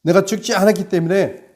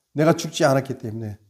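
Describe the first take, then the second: First: "내가 죽지 않았기 때문에" higher and louder with a fall; preacher raising the same line for force; emphatic repeat. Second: Said in the usual way. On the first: Shown as a demonstration. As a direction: hammer the repeated "않았기" home. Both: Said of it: "repeats louder".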